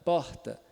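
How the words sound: The R is a soft breathy h sound. "é o H do inglês, do hat, hotel ... bem suave"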